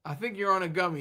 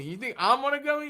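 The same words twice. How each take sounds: First: Said in the usual way. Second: Incredulous echo. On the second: Real, not acted. Answering the chat's joke, incredulous. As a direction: toss the words back, amused.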